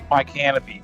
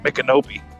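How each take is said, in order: First: It is said like the words 'my canopy'. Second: It is said unlike the words 'my canopy'. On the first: This is how the spelling suggests it is read. The speaker calls it wrong. "Looking at it, it looks like" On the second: This is how the name is actually pronounced. The speaker calls it right. "but it's really"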